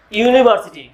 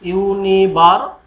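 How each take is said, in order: First: Said in the usual way. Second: ইউনিভার্সিটি drawn out slowly, opening with a clear "you" sound; teacher stretching ইউনিভার্সিটি for the class to hear the "you" at the start; slow pronunciation demo. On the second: Shown as a demonstration. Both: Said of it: "উচ্চারণটা কি এর মতন?".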